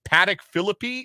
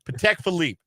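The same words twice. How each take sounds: First: The name is said as an unfamiliar guess. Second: The name is said in its familiar form. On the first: This is how someone who does not know the name would say it. The speaker calls it wrong. "Otherwise, I would be like" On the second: This is how someone who knows the name says it. The speaker calls it right. "No, no"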